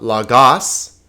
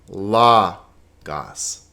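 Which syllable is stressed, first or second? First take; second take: second; first. First: The stress is on the second syllable. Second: The stress is on the first syllable. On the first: The speaker calls it wrong. "it's not lagos" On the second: The speaker calls it right. "the accent is over the first syllable"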